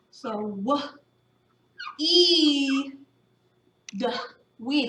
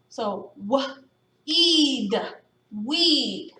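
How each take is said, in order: First: "w, e, d" sounded one by one, then blended into "weed"; sounding out. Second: "w, e, d" split apart then joined as "weed"; sounding out again. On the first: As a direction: segment each sound slowly then blend. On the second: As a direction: pause between sounds, blend at end. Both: Shown as a demonstration. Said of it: "Let's underline the sounds".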